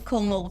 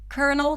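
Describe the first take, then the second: First: The first syllable has an L sound, like 'kol'. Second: The first syllable has an R sound, like 'kur'. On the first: The speaker calls it wrong. "that's kind of impossible" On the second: The speaker calls it right. "in the word kernel, there's an R sound"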